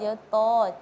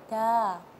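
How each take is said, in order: First: The vowel sounds rounded, like 'to'. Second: The vowel sounds open, like 'ta'. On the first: The speaker calls it wrong. "dengan to, dia to" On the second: The speaker calls it right.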